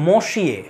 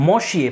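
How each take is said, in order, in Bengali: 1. এটা 'n' নীরব রেখে বলা হয়, 'mosh-yeh'। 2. এটা 'n' নীরব রেখে বলা হয়, 'mosh-yeh'।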